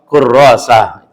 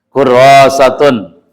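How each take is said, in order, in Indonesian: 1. Akhirannya diucapkan dengan bunyi h. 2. Akhirannya diucapkan dengan bunyi t.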